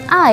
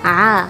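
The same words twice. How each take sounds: First: A plain vowel starting with a light glottal catch. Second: A vowel squeezed tightly from the middle throat. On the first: The speaker calls it wrong. "jangan a ya. Karena kalau a berarti kembali lagi kita ke makhraj bagian bawah tenggorokan" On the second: The speaker calls it right. "jadi hurufnya a ya"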